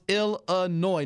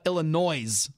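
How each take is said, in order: First: The word ends without an S sound. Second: The word ends with an audible S sound. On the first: The speaker calls it right. "Illinois has a silent S sound, so it should be pronounced Illinois" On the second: The speaker calls it wrong. "not Illinois"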